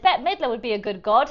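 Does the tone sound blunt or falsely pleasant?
falsely pleasant. It sounds forced, polite and falsely pleasant. The speaker hides their true feelings. "This is me masking. Here's an impression of that"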